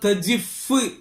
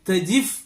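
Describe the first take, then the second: First: The final f is held long and doubled. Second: The final f is short and single. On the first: "ഷദ്ദോടുകൂടെ ഫ അവസാനിക്കുന്നിടത്ത്" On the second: "കവി എന്ത് ചെയ്യുന്നുണ്ട്"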